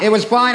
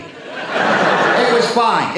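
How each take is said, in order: First: Said in the usual way. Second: Slow tease. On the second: Shown as a demonstration. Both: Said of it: "it's not gonna be pretty".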